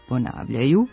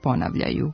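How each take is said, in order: First: Long rising accent on the second syllable, long last vowel. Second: Short falling accent on the first syllable, short last vowel. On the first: The speaker calls it right. "pravilnog dugouzlaznog akcenta na drugom slogu i postakcenatske dužine na posljednjem" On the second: The speaker calls it wrong. "kratkosilazni akcenat na prvom slogu bez postakcenatske dužine"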